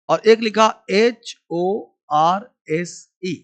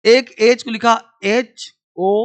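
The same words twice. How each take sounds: First: "एच ओ आर एस ई" spelled letter by letter, slowly; a teacher slowly spells the second word for the class; spelling out. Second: "एच ओ" spelled letter by letter, slowly; a teacher slowly spells the word "एच ओ" for the class; spelling out. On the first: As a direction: spell "एच ओ आर एस ई" one letter at a time, slowest at the end. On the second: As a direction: spell "एच ओ" one letter at a time. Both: Shown as a demonstration. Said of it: "एच का sound दो तरह से".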